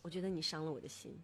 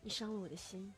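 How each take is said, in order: First: It is said in a calm, cold tone. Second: It is said in a soft, gentle tone.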